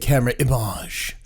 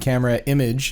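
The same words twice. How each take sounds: First: The name is said in a fancy, pretentious way. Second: The name is said in a plain way. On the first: The speaker calls it wrong. "sounds very uh, pretentious" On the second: The speaker calls it right. "is the correct pronunciation"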